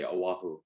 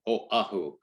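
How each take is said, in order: First: A plain everyday pronunciation that ignores the sign. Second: A Native Hawaiian pronunciation that follows the sign. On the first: This is the habitual way the speaker got used to. "I still say Oahu" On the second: This is the way some Native Hawaiians say it. "because of a certain little sign in there, is Oahu is actually the pr- correct way"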